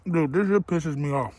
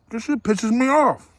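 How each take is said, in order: First: Said in the usual way. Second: Higher and slower, fed up; annoyed. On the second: Real, not acted. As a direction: drag it out, irritated.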